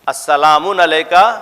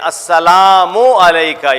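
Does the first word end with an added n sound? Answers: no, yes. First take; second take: yes; no. First: The first word ends with an added n sound. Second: The first word ends without an n sound. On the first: The speaker calls it wrong. "Wrong" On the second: The speaker calls it right. "जब ज्यादा पढ़ते हैं हम लोग क्या कहते हैं"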